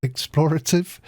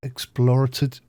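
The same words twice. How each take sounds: First: Explorative said again higher, rising; dry mouth, corrected explorative. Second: Dry mouthed, stumbling on explorative; dry mouth, slightly tripping on explorative. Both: Real, not acted. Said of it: "I'm a bit dry mouthed".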